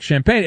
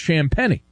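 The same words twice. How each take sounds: First: "champagne" said like the drink; "champagne" in two syllables, rhyming with "pain"; pronounced as spelled. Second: "Champagnie" said sham-PENNY; three-syllable "Champagnie", ending in "ee"; name's actual pronunciation. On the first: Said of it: "sound like champagne". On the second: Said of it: "it's pronounced Champagnie". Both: Shown as a demonstration.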